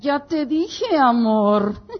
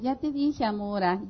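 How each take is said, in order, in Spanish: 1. Se dice con un tono duro y enojado. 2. Se dice con un tono suave y tranquilo. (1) "Se te sube la presión" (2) "No es lo mismo decirle"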